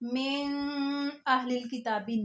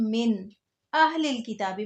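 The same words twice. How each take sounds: First: The n sound in min is hidden, nasalized. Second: The n sound in min is pronounced clearly. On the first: The speaker calls it wrong. "मैंने इसको मिन अहलिल किताबी नहीं पढ़ा" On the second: The speaker calls it right. "यहाँ मैंने इसको पढ़ा है"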